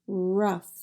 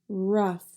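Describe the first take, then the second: No difference in how they are said.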